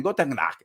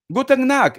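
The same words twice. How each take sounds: First: Said in the usual way. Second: "Guten Nacht" burst out higher and louder, triumphant; finally remembering "Guten Nacht", said high and loud; excited recall. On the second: Real, not acted. Tarot reader suddenly remembers the German, excited. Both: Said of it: "Entonces lo he dicho bien".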